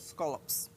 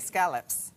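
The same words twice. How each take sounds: First: The first vowel sounds like the one in 'cot'. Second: The first vowel sounds like the one in 'cat'. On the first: This is how people locally say it. "here we say scallops. You pretend there's an O in scallops" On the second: This is how the speaker personally says it. "I say scallops"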